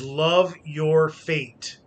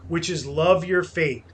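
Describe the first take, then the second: First: "love your fate" said very slowly with weight on "love"; slow, weighty maxim. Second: Said in the usual way. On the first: Shown as a demonstration. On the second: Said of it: "the other maxim is amor fati".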